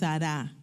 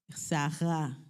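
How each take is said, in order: First: The middle r is a Spanish-style r. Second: The middle r is a Hebrew-style r. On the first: The speaker calls it wrong. "no es Sará" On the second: The speaker calls it right. "porque la Hesh se pronuncia de esa forma"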